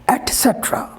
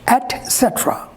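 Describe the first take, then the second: First: The first word sounds like 'et'. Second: The first word sounds like 'et'.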